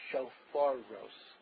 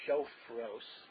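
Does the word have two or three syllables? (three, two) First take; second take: three; two. First: The word is said with three syllables. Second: The word is said with two syllables. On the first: The speaker calls it right. "but it is Shofaros" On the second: The speaker calls it wrong. "some people say Shofros"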